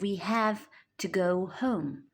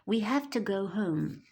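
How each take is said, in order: First: Have and to are said as separate full words. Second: Have to is blended into one reduced word. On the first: "instead of" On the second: "So we say"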